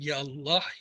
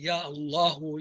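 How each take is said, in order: First: The word stops on its final consonant. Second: The word ends with a short final vowel. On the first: This is the form used when pausing. "रुकते हुए आखिरी हरफ की हरकत नहीं कहते" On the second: This is the full form of the word. "असल लफ्ज है"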